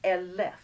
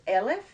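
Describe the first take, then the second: First: "elef" said eh-LEF, second syllable stressed; "elef" with a light start and a heavy LEF; accent on last syllable. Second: "elef" said EH-lef, first syllable stressed; "elef" with a strong EL and a light ending; accent on first syllable. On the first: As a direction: wrongly push the accent of "elef" to the end. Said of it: "not elef". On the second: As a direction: push the accent of "elef" to the front. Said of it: "the accent back to the front". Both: Shown as a demonstration.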